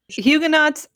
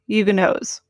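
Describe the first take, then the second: First: The final t is clearly pronounced. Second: The final t is left silent.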